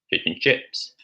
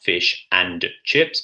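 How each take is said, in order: First: The word 'and' is reduced to a short 'n'. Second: The word 'and' is said fully and clearly. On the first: The speaker calls it right. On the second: The speaker calls it wrong.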